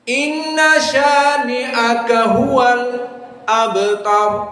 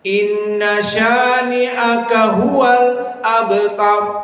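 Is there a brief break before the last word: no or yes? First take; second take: yes; yes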